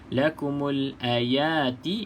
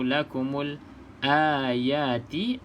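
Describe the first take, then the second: First: The first vowel of ayati is kept short. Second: The first vowel of ayati is held long. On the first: "Kalau lakumul ayati, a tu pendek" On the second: "kalau lakumul ayati, a tu panjang"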